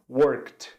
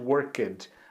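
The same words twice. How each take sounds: First: The ending is a single 't' sound, no extra syllable. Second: The ending is said as a separate 'ed' syllable. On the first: The speaker calls it right. "Como se nós não falássemos o Ezinho que tem ali no meio e falássemos esse D como se fosse um T" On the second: The speaker calls it wrong. "A gente não vai falar normalmente worked"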